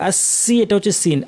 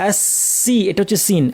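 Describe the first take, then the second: Both takes have the same delivery.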